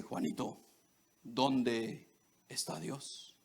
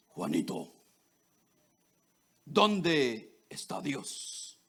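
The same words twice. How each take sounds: First: Lower, softer, slow preacher question; a hushed, solemn pastor asking again. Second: Deep, slow, solemn preacher voice. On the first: Pastor repeating the question to the boy, hushed and slow. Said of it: "Y le dice". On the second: Pastor questioning the boy about God, in a deep, slow preacher voice. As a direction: boom it out like a pastor from the pulpit. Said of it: "con su voz así de predicador". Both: Retold or imitated.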